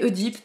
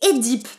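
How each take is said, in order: First: The first vowel is a rounded 'eu' sound. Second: The first vowel is an unrounded 'é' sound. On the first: This is the speaker's habitual pronunciation. "moi je vais continuer à l'appeler Oedipe" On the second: This is reportedly the proper pronunciation. "que l'on prononce Édipe, paraît-il"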